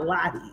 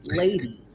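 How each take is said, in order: First: The first vowel sounds like 'lot'. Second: The first vowel sounds like 'lay'. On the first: The speaker calls it wrong. "It's not Lottie" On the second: The speaker calls it right. "it's Lady"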